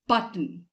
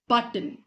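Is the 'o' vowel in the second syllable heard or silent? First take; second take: silent; silent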